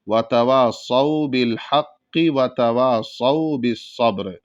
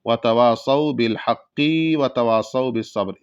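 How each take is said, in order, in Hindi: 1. 'haqqi' का आख़िरी स्वर छोटा रखा जाता है। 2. 'haqqi' का आख़िरी स्वर लंबा खींचा जाता है। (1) "बल्कि जल्दी पढ़ना है। तो कैसे पढ़ेंगे?" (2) "बिल हक़्क़ि इस तरीके से खींच देते हैं। ... ये गलत है"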